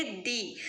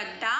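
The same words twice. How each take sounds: First: दी with a long 'ee' vowel; 'the' before vowels. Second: द with a short neutral 'uh' vowel; 'the' before consonants. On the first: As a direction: say 'the' as दी, rhyming with 'see'. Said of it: "तब हम क्या पढ़ेंगे". ('the' को दी पढ़ें, लंबी 'ई' के साथ) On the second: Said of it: "pronunciation करेंगे तो कॉन्सोनेंट साउंड आ रहा है". ('the' को द पढ़ें, छोटी 'अ' ध्वनि के साथ) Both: Shown as a demonstration.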